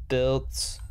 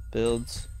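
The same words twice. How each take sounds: The two takes are said the same way.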